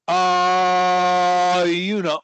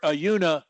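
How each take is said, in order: First: The uh sound is held very long. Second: The uh sound is very short.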